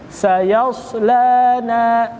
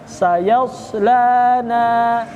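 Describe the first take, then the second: No difference in how they are said.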